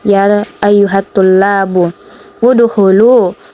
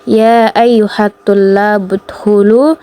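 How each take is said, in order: First: A break comes before a fresh 'u' vowel. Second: The words run together with no break. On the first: "Kalau dia dipenggal" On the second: "itu ketika dia disambung"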